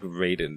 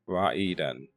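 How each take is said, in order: First: The name is said with an American pronunciation. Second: The name is said with a Japanese pronunciation. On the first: "sounds like something you would say in like the States" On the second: "It's like the, the Japanese way of saying pronunciation"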